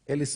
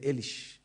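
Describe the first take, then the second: First: The name ends with an 's' sound. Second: The name ends with an 'sh' sound.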